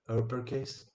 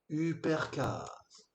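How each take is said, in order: First: It is read with English-style pronunciation. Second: It is read with French-style pronunciation. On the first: The speaker understands English. The speaker calls it right. "on sait que ça se prononce" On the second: The speaker knows no English. The speaker calls it wrong. "Il dirait"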